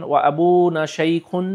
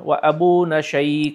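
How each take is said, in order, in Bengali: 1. শেষ শব্দটি -un প্রত্যয় দিয়ে শেষ হয়। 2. শেষ শব্দটি খালি ব্যঞ্জনে শেষ হয়। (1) "না বলে" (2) "আপনি বলবেন"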